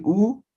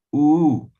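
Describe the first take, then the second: First: Said in the usual way. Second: U held for two beats and said louder; long vowel. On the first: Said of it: "En vez de decir U". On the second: Shown as a demonstration. Teacher showing the Aymara long U to the class, held and louder. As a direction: stretch the U to double length, pushed out. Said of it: "vamos a alargar".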